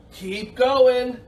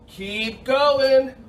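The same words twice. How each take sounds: The two takes are said the same way.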